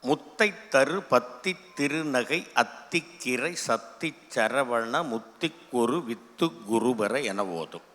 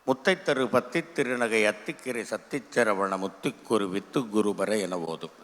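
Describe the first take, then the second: First: The verse is recited at a slow pace. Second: The verse is recited at a faster pace. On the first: "ஒரு speed" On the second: "ரெண்டாவது speed"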